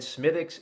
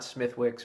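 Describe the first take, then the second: First: The W sound is left out. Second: The W sound is pronounced. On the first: The speaker calls it right. "I was always told the W is silent, so I've always said" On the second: The speaker calls it wrong. "and not"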